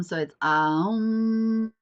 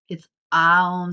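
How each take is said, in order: First: "Aum" stretched long and slow, higher; slow drawn-out Om. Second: A loud, short "Aum" hummed out; loud Om demo. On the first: Teaching parents to hum a long, slow "Aum". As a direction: hold "Aum" long like a resonant chant. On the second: Showing parents how to hum "Aum" loudly. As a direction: sound out "Aum" with a strong burst. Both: Shown as a demonstration. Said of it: "I'm gonna show you two different methods".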